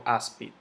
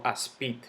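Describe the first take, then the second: First: Said in the usual way. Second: "aspid" stressed on the last syllable, as-PID; mis-stressed "aspid" as asPÍD; wrong stress on PID. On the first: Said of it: "yo digo". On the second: Shown as a demonstration. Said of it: "Yo no digo".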